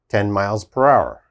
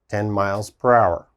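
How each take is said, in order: No difference in how they are said.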